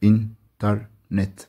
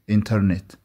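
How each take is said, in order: First: إنترنت drawn out slowly, each of its three syllables separate; syllables split. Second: Said in the usual way. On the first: Shown as a demonstration. Teacher slowly splitting إنترنت into three syllables for pupils. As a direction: stretch إنترنت into three clear parts. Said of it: "كده تلات مقاطع معانا". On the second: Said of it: "بننطق الكلمة بعدها إنترنت".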